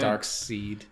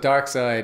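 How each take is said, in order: First: The name's second part rhymes with 'need'. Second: The name's second part rhymes with 'ride'. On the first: The speaker calls it wrong. "I always say dark seed" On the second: The speaker calls it right. "It's side"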